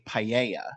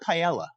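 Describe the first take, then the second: First: It is said with a Spanish-like pronunciation. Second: It is said with a British pronunciation. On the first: The speaker calls it right. "how we say correctly" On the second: The speaker calls it wrong. "They call it"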